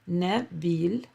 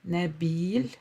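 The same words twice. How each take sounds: Both takes have the same delivery.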